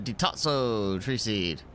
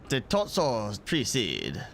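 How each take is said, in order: First: It is said in a plain American voice. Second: It is said in a mock French accent.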